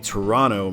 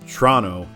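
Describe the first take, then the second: First: The word is said with all its syllables. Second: The word is said short, with syllables dropped. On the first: It can pass for a local. "maybe it can pass" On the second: The speaker is clearly a local. "if you just say Toronto, then they really know you're legit"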